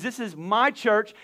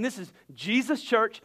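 First: My leaned on, slow and falling; slow, hit the word my hard; stress on my. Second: Jesus' leaned on, slow and falling; slow, land hard on Jesus' not church; stress on Jesus. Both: Shown as a demonstration. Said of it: "When, when you forget the my".

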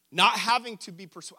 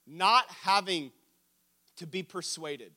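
First: Said in the usual way. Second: "not having" slow and loud, then a pause; slow emphasis. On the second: Real, not acted. Preacher repeating a definition he loves, slow emphasis. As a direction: stretch out "not having", then drop to "to be persuaded".

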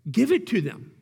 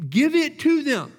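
First: Said in the usual way. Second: God giving in to Israel, louder and higher; louder, higher insistent repeat. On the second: Acted. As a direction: raise it, give it to them. God's reply voiced, repeated.

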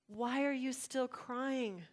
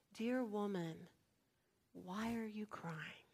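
First: Slow, fuller-voiced gentle insistence; insistent question. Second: Soft, slow, near-whispered tenderness; tenderly ask, hushed and unhurried; gentle question. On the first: Angels pressing a weeping woman, gently insistent. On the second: Acted. Angels to a weeping woman at the tomb, gentle.

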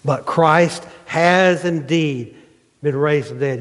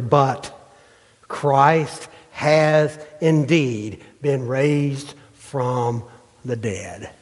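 First: Slow, HAS hit firmly in the restated verse; stressed repeat. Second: Slow, drawn-out reading of the verse; slow scripture reading. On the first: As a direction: lean hard on has, then finish plainly. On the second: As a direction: read each word slowly, weighing it. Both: Shown as a demonstration. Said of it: "Look what he says, verse twenty".

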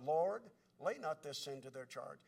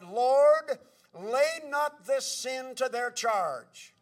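First: Low, soft recalled plea; remembered prayer. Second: Loud, drawn-out plea to the Lord; crying out. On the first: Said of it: "Thinking of Stephen's prayer". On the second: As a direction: cry out a dying man's prayer, slowly. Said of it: "Stephen cried". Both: Retold or imitated.

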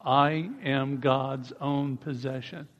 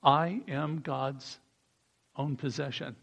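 First: "I am God's own possession" slow with rising "I"; slow group declaration; steady drawn-out line; slow unison repeat. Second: "I am God's own possession" quiet, slow, dropping away; hushed declaration; quiet lead line for the group; soft slow model. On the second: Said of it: "I think we should say". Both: Shown as a demonstration.

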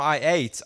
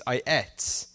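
First: ATE rhyming with "late"; long-vowel "eight" for ate; American ate. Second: ATE pronounced "et", rhyming with "bet"; low, soft "et" for ate; British ate. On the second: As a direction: say ate with a short e. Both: Shown as a demonstration. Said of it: "Not I ate".

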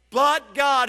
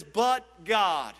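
First: A booming but God; but God punched loud. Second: Said in the usual way. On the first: Shown as a demonstration. Preacher repeating for emphasis, loud. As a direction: hit the words but God hard.

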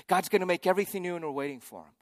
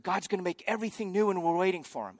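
First: Rattled off fast like a tired refrain; same hope a year on, worn out; weary rote repeat. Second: Said in the usual way. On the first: Retold or imitated. Pilgrims a year later repeating the hope, fast and weary. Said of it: "And then a year later". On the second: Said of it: "people are like".

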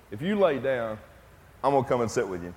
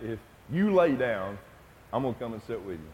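First: Said in the usual way. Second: Quiet, tender promise fading softer. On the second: Retold or imitated. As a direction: promise softly to stay beside him. Son promising to stay.

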